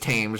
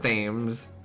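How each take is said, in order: First: It begins with a plain t sound. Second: It begins with a th sound.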